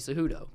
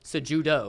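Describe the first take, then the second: First: The j is pronounced like an English h. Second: The j is pronounced like an English j. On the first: The name is treated as Spanish. "because he I, is a Spanish last name" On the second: The name is treated as American. "the guy's born in America. He's American. It's probably Cejudo"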